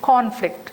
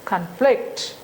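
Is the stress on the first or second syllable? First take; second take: first; second. First: The stress is on the first syllable. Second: The stress is on the second syllable. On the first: It is used as a noun. "first sound is longer and louder" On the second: It is used as a verb. "This con becomes reduced"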